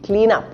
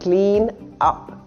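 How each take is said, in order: First: The n carries over, joining the two words. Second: The two words are said separately with a break. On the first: The speaker calls it right. "It's as though the N has moved over to the other word and it makes it faster" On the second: The speaker calls it wrong.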